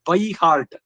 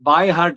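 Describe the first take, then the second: First: The first word has a short 'ai' vowel. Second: The first word has a long 'aa' vowel. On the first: The speaker calls it right. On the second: The speaker calls it wrong. "ಬಾಯ್ ಹಾರ್ಟ್ ಅಲ್ಲ"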